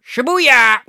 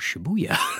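First: It is shouted in a harsh, forceful tone. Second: It is said in a soft, warm tone. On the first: "It sounds kind of aggressive though" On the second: "Can you do it in a more friendly voice?"

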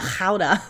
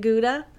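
First: It begins with a raspy sound from the throat. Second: It begins with a plain hard G sound. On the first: "You have the phlegm in your throat" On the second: "Do you say Gouda?"

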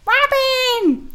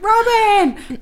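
First: It is said in a squeaky mouse voice. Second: It is said in a normal person's voice.

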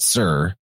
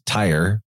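First: The name begins with an S sound. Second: The name begins with a T sound. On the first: The speaker calls it right. "you actually pronounce that Sir" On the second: The speaker calls it wrong. "it looks like it says tire, but you actually pronounce that Sir"

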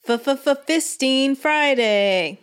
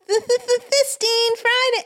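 First: It is said in a lower, even voice. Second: It is said in a high, childlike voice.

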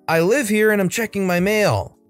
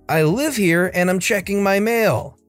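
No difference in how they are said.

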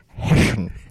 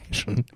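First: The s sounds are pronounced with a lisp. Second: The s sounds are pronounced clearly, without a lisp.

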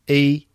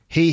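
First: The h at the start is dropped. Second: The h at the start is pronounced.

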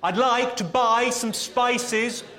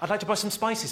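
First: It is said more loudly. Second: It is said at normal volume.

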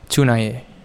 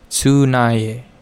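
First: The word is said quickly, at full speed. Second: The word is said at a moderate speed. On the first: "Now at full speed" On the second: "Now a little quicker"

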